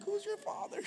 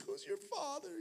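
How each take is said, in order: First: Much higher, squeaky mock echo of the biker; the preacher re-imitates the biker, in a hammed-up squeak; exaggerated biker imitation. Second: Much higher, soft, tearful-sounding question; the stunned biker asks, in a high soft voice; weeping biker asking. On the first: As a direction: push it way up into a comic squeak. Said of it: "I'm like". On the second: Retold or imitated. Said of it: "The guy's like".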